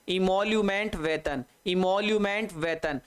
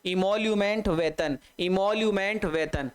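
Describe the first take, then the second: No difference in how they are said.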